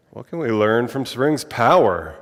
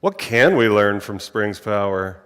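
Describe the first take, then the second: First: "Spring's" stressed with a falling tune; weight the phrase on "Spring's" and let it fall. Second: "can" punched, a bit louder; stress on CAN. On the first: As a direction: land the emphasis on "Spring's", a bit louder. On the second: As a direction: lean hard on the word "can". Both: Shown as a demonstration. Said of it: "where should the emphasis be?".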